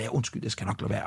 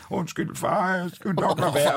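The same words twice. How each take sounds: First: Low, soft apologetic murmur; subdued, guilty father; sheepish apology. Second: Lightly voiced apologetic little daughter; a hint of a small child saying sorry; slightly raised, meek child voice; meek child, imitated. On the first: Retold or imitated. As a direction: apologise under your breath, retold. Father's sheepish inner apology, retold. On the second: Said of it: "Og Ellen er sådan lidt".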